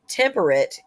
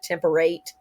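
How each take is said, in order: First: The last syllable is reduced and unrhymed. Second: The last syllable is full, rhyming with rate. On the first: This is the modern pronunciation. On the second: This is the older, period pronunciation.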